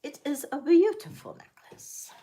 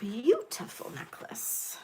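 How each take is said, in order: First: Higher, brighter full-voiced praise; excited. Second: Soft breathy admiring whisper. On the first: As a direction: say it out proudly. Repeats the praise out loud. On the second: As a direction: breathe it out in awe. Admiring the necklace softly. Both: Real, not acted.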